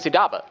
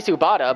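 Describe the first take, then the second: First: The name is said with d then b. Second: The name is said with b then t. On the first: The speaker calls it right. "but it's actually Sudaba" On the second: The speaker calls it wrong. "I want to say Subata"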